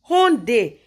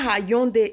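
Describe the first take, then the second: First: No Y glide is heard after the H. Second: A Y glide is heard after the H. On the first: The speaker calls it right. "the Y is silent" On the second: The speaker calls it wrong. "it's not Hyundai"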